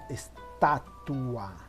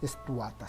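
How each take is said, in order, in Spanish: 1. La palabra termina en una sílaba 'tua'. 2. La palabra termina en una sílaba 'ta' simple. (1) "sino estatua" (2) "no se dice estuata"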